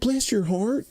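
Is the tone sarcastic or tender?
tender. It is said in a warm, tender tone. The speaker feels sympathy for the listener. "like if they're very really tender about it"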